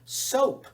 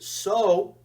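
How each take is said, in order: First: The final p sound is clearly pronounced. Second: The final p sound is left off. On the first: The speaker calls it right. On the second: The speaker calls it wrong.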